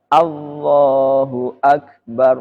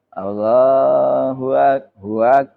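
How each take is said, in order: First: The glottal catch before Akbar is clearly sounded. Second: The glottal catch before Akbar is softened away. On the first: The speaker calls it right. "harus jelas, tidak boleh tashil" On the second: The speaker calls it wrong. "nggak boleh"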